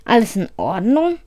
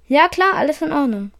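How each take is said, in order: First: Rising question on "Ordnung"; "Alles in Ordnung?" as a checking question, rising at the close. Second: Higher-pitched "Ja klar", falling off; high "klar", then let "Ordnung" drop; reassuring answer. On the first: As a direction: ask "Alles in Ordnung?", lifting the end. Logan questions the doctor. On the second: Doctor answers that all is fine. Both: A narrator's reading.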